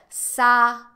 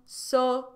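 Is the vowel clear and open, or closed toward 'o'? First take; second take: open; closed. First: The vowel is a clear, open 'a'. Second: The vowel is closed, sounding close to 'o'. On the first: "E o a, que é tão ah, límpido" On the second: "fica mais fechadinho"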